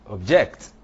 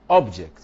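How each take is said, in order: First: "object" punched loud on JECT; stress on second syllable. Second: "object" punched loud on OB; stress on first syllable. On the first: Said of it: "is a verb". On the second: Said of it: "is a noun". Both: Shown as a demonstration.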